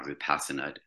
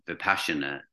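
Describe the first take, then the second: First: Vipassana with a plain "s" in the middle; alternative pronunciation. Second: Vipassana with a "sh" in the middle; alternative pronunciation. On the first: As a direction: say Vipassana as "vi-PASS-uh-nuh", no "sh". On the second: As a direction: say Vipassana as "vi-PASH-uh-nuh". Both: Shown as a demonstration. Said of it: "don't know which way you say it".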